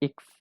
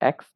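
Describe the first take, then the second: First: The letter name begins with an 'i' vowel. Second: The letter name begins with an 'e' vowel. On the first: The speaker calls it right. "ইক্স প্রনাউন্সিয়েশন হবে ইক্স" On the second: The speaker calls it wrong. "এক্স নয়"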